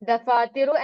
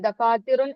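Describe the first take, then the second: First: The word ends on a vowel without n. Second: The word ends with an added n sound. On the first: The speaker calls it right. "ദഫാത്തിറു എന്നാണ് പറയേണ്ടത്" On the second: The speaker calls it wrong. "ദഫാത്തിറുൻ എന്ന് പറയരുത്"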